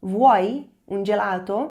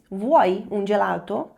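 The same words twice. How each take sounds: First: Louder slow repeat. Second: Slow, rising Italian question; slow rising demo; slow model question. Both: Shown as a demonstration. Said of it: "Você quer um sorvete?".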